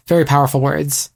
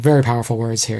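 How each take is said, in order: First: Said in the usual way. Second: Newscaster voice. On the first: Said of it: "I sound like a newscaster". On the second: Retold or imitated. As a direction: read it like a TV anchor. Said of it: "I sound like a newscaster being like".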